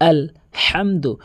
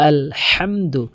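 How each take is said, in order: Both takes have the same delivery.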